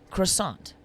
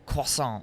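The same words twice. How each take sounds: First: It is said with a plain English pronunciation. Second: It is said with a French-style pronunciation.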